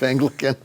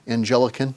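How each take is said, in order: First: The word begins with the sound of 'angle'. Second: The word begins with the sound of 'angel'. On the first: The church is the English church. The speaker calls it right. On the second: The church is linked to angels. The speaker calls it wrong.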